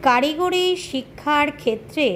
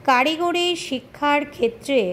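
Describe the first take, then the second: No difference in how they are said.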